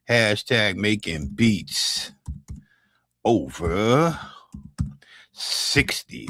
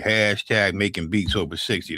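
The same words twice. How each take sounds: First: "Hashtag making beats over sixty" said very slowly, each chunk set apart by pauses; slow spelled-out hashtag. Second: Said in the usual way. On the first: Shown as a demonstration. Spelling the hashtag out slowly for chat to copy.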